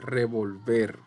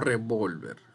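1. La tónica cae en la última sílaba. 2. La tónica cae en la sílaba del medio. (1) "Ver es la sílaba tónica y también es aguda" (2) "no revolver"

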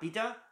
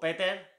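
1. El nombre se pronuncia de forma no española. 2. El nombre se pronuncia de forma española.

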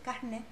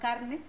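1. La r del medio suena como una h aspirada. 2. La r del medio es una r simple clara. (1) "que en medio se aspira, se dice carne" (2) "no carne"

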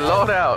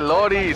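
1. El nombre se pronuncia como Laura. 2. El nombre se pronuncia como Lori. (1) "se dice Laura" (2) "no se dice Lori"

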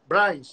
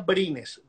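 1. El nombre se pronuncia a la manera inglesa. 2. El nombre se pronuncia a la manera española. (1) "como te dicen los gringos" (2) "se pronuncia Brines"

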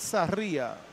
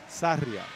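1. El acento está en la segunda sílaba. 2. El acento está en la primera sílaba.

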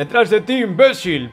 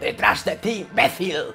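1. Se dice sin acento castellano. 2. Se dice con acento castellano.

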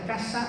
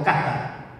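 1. La s es predorsal, se hace con el predorso de la lengua. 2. La s suena como "th", entre los dientes. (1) "en Andalucía va a ser casa" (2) "o cata, interdental"

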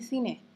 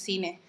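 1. Suena a español de España. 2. Suena a español peruano. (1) "se dice cine" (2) "los peruanos decimos cine"

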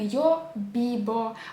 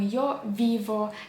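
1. Приголосні вимовляються як повний звук b. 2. Приголосні вимовляються як повний звук v. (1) "там немає звуку б" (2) "чи звуку в"

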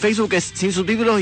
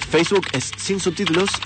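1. La frase se pronuncia a un ritmo normal, algo más rápido. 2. La frase se pronuncia a un ritmo más lento.

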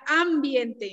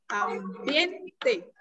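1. El acento está en la primera sílaba. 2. El acento está en la sílaba del medio. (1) "¿Esdrújula? No, porque entonces diría ambiente" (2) "en este caso, ambiente ... sería grave"

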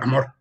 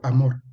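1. Se dice con un tono duro y seco. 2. Se dice con un tono suave y delicado. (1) "No digo amor" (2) "una forma de decirlo más suave"

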